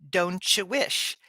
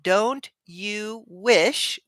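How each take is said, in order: First: The three words run together as one word. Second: The three words are said separately. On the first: "Like it's all one word" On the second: "Instead of"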